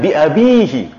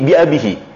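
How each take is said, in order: First: The vowel after 'ab' is long. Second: The vowel after 'ab' is short. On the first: This is the usual expected case form. "seharusnya kan bi abihi" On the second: This is the reduced case form used in the verse. "Namun di sini bi abihi. Di mana berarti i'rabnya naqas"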